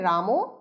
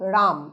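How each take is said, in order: First: The word ends with a final vowel sound. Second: The word ends on the consonant m. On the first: This is the older form of the word. "প্রথমটার উচ্চারণ হবে রামও" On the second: This is the later form after the final vowel dropped. "এই অন্তিমের অ লুপ্ত হয়ে গেল, হলো রাম"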